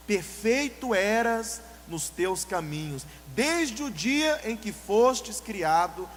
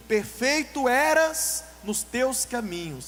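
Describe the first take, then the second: First: Very slow, stretched verse; solemn scripture reading. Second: Slow, louder scripture intoning; solemn scripture reading. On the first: Preacher rereads the verse slowly after naming the devil. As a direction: intone the verse heavily again. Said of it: "Sabe de quem". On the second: Preacher reads Ezekiel aloud slowly to the church. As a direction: read the verse weightily, word by word. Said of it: "A palavra do Senhor diz". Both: Shown as a demonstration.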